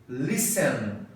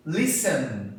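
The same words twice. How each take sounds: The two takes are said the same way.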